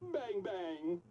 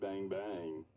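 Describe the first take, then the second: First: It is said in a happy tone. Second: It is said in a flirty tone.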